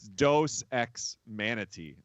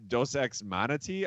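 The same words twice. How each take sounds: First: The last word sounds like the animal's name. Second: The last word differs from the animal's name. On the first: The speaker calls it right. "like the the animal" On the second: The speaker calls it wrong. "I think I was saying"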